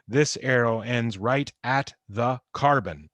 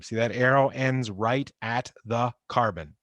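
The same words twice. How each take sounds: First: Slower, leaning on "This" to point at the arrow; slower emphatic repeat. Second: Said in the usual way. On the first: Shown as a demonstration. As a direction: repeat it deliberately, stressing "This". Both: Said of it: "Notice my arrows always end at atoms".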